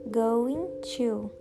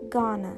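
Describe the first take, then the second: First: Going to is said fully. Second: Going to is contracted to gonna.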